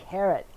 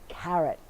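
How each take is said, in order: No difference in how they are said.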